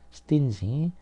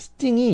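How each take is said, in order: First: The middle consonant is a soft 'j' sound. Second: The middle consonant is an 'ng' sound. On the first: Someone is miserly with money. "앞에 이제 어근의 발음이 바뀌었죠" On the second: Something has a sting or pricks. "스팅이 이렇게 발음하는 경우도 있어요"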